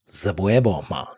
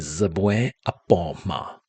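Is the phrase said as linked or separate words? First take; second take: linked; separate. First: The words run together into one shortened word. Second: The words are said separately in full form. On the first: This is the everyday conversational form. "words tend to get linked together and people speak quickly" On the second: This is the full form of the phrase. "use the full phrase apoma"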